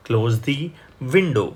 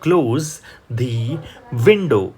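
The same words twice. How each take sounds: First: Said in the usual way. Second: Word by word, window louder; slow model reading. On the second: Shown as a demonstration. Teacher reading slowly, word by word, for students. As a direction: read it slowly, one word at a time. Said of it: "તમે કહેશો".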